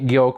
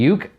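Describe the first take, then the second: First: The name rhymes with joke. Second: The name rhymes with duke. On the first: "I'm pronouncing it Yoke" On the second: "It could be Uke"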